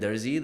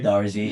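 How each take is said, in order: First: It is said in an Indian accent. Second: It is said in an American accent.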